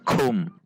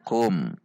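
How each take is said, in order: First: The k has a strong puff of air. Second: The k has only a slight puff of air. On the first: The speaker calls it wrong. "Namun tidak terlalu, tidak kum" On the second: The speaker calls it right. "namun kum"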